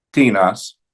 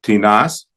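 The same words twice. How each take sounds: First: "tinas" as TI-nas; stress on first syllable. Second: "Tinas" as ti-NAS, rising; stress on last syllable. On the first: Teacher reciting neuter interrogatives, TI-nas stressed up front. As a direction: hit the TI of "tinas". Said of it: "la primera sílaba". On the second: Teacher reciting neuter indefinites, ti-NAS stressed last. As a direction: push onto the NAS of "Tinas". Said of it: "en la última sílaba". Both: Shown as a demonstration.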